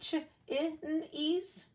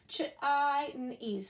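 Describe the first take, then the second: First: The first vowel is a short i sound. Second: The first vowel is a long i sound. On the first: "We can do short I" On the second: "Flip that short I"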